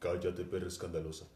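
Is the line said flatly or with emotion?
flatly. It is said flatly in a deep voice.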